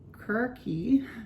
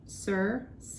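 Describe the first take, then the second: First: The name is said the Greek way. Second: The name is said the Latin way. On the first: "in Greek" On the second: "usually pronounced as in Latin"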